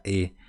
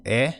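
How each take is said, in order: First: "E" as a closed ê, not eh. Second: "E" as an open eh; Portuguese open E. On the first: Teacher gives the Guarani pronunciation to learners, closed "E". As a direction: keep the vowel in "E" narrow. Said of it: "sempre continua sendo a pronúncia". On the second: Teacher contrasts Portuguese accented letter for learners, open "E". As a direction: open up the vowel in "E". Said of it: "coloca o acento sobre a letra E". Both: Shown as a demonstration.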